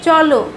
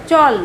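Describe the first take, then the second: First: শেষে ও ধ্বনি সহ চলো; with final o. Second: হসন্তের মতো চল; clipped final consonant. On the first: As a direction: sound the last ও in চলো clearly. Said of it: "চলটা বলতে চল লয়ের সঙ্গে ও ধ্বনিটা আসে". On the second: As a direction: stop চল dead on the ল. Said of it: "হসন্তের মতো উচ্চারণ হচ্ছে". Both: Shown as a demonstration.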